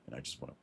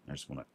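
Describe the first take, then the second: No difference in how they are said.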